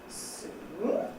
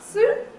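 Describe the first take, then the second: First: The pitch rises from a very low start. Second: The pitch rises from a higher start. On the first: "start right at the bottom and go up" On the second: "start higher up"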